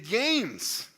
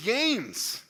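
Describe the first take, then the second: First: The name is pronounced the English way. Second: The name is pronounced the English way.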